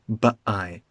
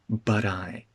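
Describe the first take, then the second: First: The T is a glottal stop. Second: The T is a quick tap. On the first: The speaker calls it wrong. "It's not a glottal stop. I'm not saying but I" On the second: The speaker calls it right. "The T is tapped"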